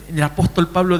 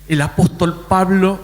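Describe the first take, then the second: First: Said in the usual way. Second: Lightly mimicked pointed tone; put-on tone of a woman citing scripture; imitating a churchwoman's tone. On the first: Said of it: "no lo voy a hablar con todo". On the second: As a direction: quote her in the tone she used, measured and deliberate. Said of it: "así, con ese tono".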